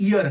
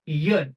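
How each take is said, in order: First: "ইয়ার" as "ear", opening on a pure vowel; vowel-first "ইয়ার", like English "ear"; wrong "ear" reading. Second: "ইয়ার" as "year", opening on a consonant Y; Y-first "ইয়ার", like English "year"; correct "year" reading. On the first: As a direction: drop the Y from the start of "ইয়ার". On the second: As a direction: lead "ইয়ার" with a clear Y glide. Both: Shown as a demonstration. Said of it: "এটা ইয়ার না".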